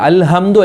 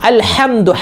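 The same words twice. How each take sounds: First: The h is a plain, light h sound. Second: The h is a tight, breathy throat h. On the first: The speaker calls it wrong. "ഹായല്ല, അൽഹംദു അല്ല" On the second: The speaker calls it right. "കെട്ട് ഹ ... അൽഹംദു ഹ ആണ്"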